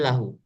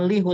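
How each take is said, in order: First: The first vowel is an 'a' sound. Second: The first vowel is an 'i' sound. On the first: The speaker calls it right. "tapi lahu" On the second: The speaker calls it wrong. "bukan lihu"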